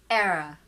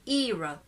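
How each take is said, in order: First: The first vowel is a short eh sound. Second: The first vowel is a long ee sound. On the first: "That's the sound of eh, eh" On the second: "That's e, long sound"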